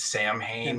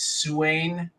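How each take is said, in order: First: The first syllable has a clear 'm', like 'sam'. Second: The first syllable has no 'm', like 'sow'. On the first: This is how the film character says it. The speaker calls it wrong. "Loomis says pronounces the word as" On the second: This is the accepted pronunciation. The speaker calls it right. "the correct pronunciation is"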